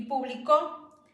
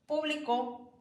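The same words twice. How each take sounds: First: Publicó with the weight on the final có, slowly; stress on last syllable. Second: Público with the weight on pú; stress on first syllable. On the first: Teacher contrasting stress, stressing có in publicó. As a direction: land hard on có in publicó. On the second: Teacher contrasting stress, stressing pú in público. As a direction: hit the pú of público. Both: Shown as a demonstration. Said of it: "ponerle el acento en diferente vocal".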